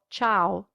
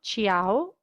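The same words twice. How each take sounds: First: The i is silent, giving a plain cha sound. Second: The i is sounded as its own vowel. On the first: The speaker calls it right. "but ciao ... the I is silent" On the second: The speaker calls it wrong. "it's not ciao"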